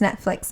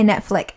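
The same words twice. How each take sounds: First: The word ends with a ks sound. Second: The word ends with a plain k sound. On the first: The speaker calls it right. "But it's Netflix, F L I X" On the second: The speaker calls it wrong. "But you say Netflix, F L I C K"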